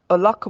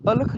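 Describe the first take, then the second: First: ਅਲਖ as a-LAKKH, second syllable heavy; correct stress demo. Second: ਅਲਖ as light a-lakh, undoubled l; wrong stress demo. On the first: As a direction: lean on the lakh of ਅਲਖ. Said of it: "ਅਲਖ ਬੋਲਣਾ". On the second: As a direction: say ਅਲਖ quickly with a single l. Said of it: "ਨਹੀਂ ਬੋਲਣਾ". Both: Shown as a demonstration.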